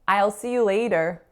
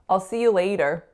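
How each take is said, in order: First: "I'll" is said fully, like "aisle". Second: "I'll" is reduced, sounding like "all". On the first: The speaker calls it wrong. "it's pronounced as aisle" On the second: The speaker calls it right. "reduce the I will, not to I'll, but even more, so to all"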